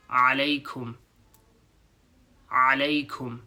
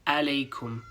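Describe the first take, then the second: First: "Alaikum" begun with a throaty ain; "Alaikum" with the A pressed in the throat. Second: "alaikum" with a flat English a; "alaikum" without the throat sound; plain English a. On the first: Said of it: "Rather than alaikum". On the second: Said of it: "Rather than". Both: Shown as a demonstration.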